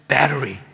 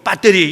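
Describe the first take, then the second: First: It is said with a rolled American accent. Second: It is said with a flat Korean accent. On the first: "거기는 battery" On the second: "한국에서는 배터리"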